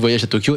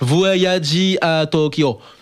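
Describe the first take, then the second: First: It is said with a plain French accent. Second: It is said with a Japanese accent. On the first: The speaker calls it right. "ça se prononce également, là aussi, Voyage à Tokyo" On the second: The speaker calls it wrong. "ça c'était plus avec l'accent de là-bas"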